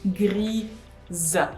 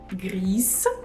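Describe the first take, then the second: First: The word ends in a voiced z sound. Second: The word ends in a voiceless s sound. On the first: The speaker calls it right. "No, it's grise" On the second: The speaker calls it wrong. "this mistake of pronouncing gris"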